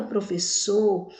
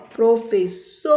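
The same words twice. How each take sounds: First: Said in the usual way. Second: "professor" split, loud long final SOR; forceful last syllable. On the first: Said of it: "na palavra professor". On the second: Shown as a demonstration. Teacher showing children the strongest syllable, "professor" with punched SOR. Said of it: "pronunciamos com mais força".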